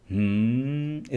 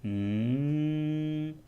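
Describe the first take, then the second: First: Wrong hum with h. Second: Long soft mmm pitched higher; high m hum. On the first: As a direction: hum starting with an h sound. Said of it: "इस तरह से नहीं, सिर्फ म". (ह मिला हुआ हम्म) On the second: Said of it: "दूसरे में आपको म ही करना है". (ऊँची, हल्की, लंबी म ध्वनि) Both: Shown as a demonstration.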